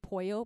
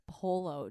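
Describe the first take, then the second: First: The middle consonant sounds like a Y. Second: The middle consonant sounds like an L. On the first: The speaker calls it right. "Double L in Spanish. It's pronounced like a Y" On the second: The speaker calls it wrong. "what is polo?"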